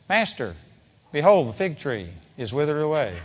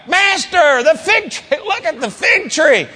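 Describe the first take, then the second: First: Said in the usual way. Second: Much higher, astonished exclamation; overwhelmed. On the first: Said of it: "I don't believe that Peter said". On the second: Shown as a demonstration. Peter shows Jesus the withered tree, astonished. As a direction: gasp it out in shock. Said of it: "he was just overwhelmed".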